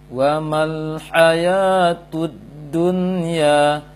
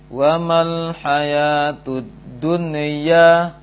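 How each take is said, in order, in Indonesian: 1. Bunyi n jelas, tanpa putus atau pantulan. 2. Bunyi n dilepaskan dengan gema memantul. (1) "Bacaan tepat adalah" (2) "Atau dia terpantulkan"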